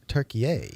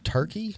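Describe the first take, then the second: First: The name is said with three syllables. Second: The name is said with two syllables. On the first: This is the new way of saying the name. "They like changed the pronunciation of it" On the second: This is the old way of saying the name. "but it's not Turkey anymore"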